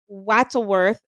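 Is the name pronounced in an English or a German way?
English. The name is pronounced the English way. "and I probably said it wrong"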